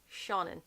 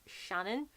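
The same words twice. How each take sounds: First: Seanan as SHAW-nun; correct Seanan. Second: Shannon with short A, SHAN-un, rising; mispronounced Seanan. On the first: Correcting viewers on the author's name, Seanan as SHAW-nun. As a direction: say Seanan with a long AW first. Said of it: "A lot of people pronounce it Shannon, but is". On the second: Quoting how people misread Seanan, said as Shannon. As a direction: say Shannon with a short flat-cat A. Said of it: "A lot of people pronounce it". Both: Shown as a demonstration.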